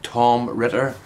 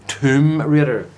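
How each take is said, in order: First: "Tom Ritter," said slowly with short "o" in Tom and "Ritter" in place of Raider; misheard version. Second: "Tomb Raider," said slowly and clearly, long "oo" in Tomb and "ray" in Raider; careful pronunciation. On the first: Showing how his accent made the name sound, slow mock mishearing. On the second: Correcting viewers who misheard the game name, careful slow pronunciation. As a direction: spell out "Tomb Raider," slowly, a bit higher and louder. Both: Shown as a demonstration. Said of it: "as it sounded before".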